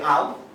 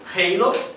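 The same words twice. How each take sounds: First: The word is said with Portuguese pronunciation. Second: The word is said with an American English accent. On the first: "halo no português pode ser halo" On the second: "de acordo com [name] pode ser halo"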